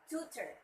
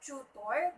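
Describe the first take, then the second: First: The stress is on the first syllable. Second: The stress is on the second syllable. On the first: The speaker calls it right. "the stress should be at the first syllable" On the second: The speaker calls it wrong. "usually say it's tutor"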